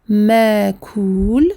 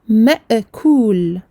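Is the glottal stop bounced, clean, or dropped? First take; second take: dropped; bounced. First: The glottal stop is left out entirely. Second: The glottal stop is released with a bounce. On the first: "j'aurais fait disparaître la hamza" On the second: "j'aurais créé une qalqalah qui n'est pas euh, correcte"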